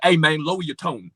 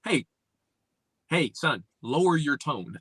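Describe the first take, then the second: First: Casual slang delivery, endings dropped; relaxed street talk. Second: Measured, composed delivery with pauses and full r sounds; controlled, well-spoken imitation; mimicked proper talk. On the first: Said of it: "Instead of like". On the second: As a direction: correct him calmly, each word fully pronounced. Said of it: "Like, no". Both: Shown as a demonstration.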